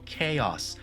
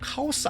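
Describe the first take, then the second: First: It is said with English sounds, as kay-os. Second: It is said with Korean-style syllables, as ka-o-seu. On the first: The speaker calls it right. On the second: The speaker calls it wrong.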